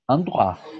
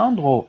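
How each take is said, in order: First: It is said with a standard French accent. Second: It is said with a Martinican accent. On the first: The speaker calls it right. "et je dis endroit" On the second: The speaker calls it wrong. "je ne dis pas endroit"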